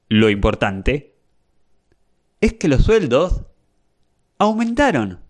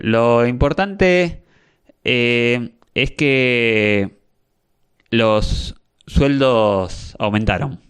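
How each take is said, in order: First: It uses clean silent pauses without filler sounds. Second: It is broken up by filler sounds like eh.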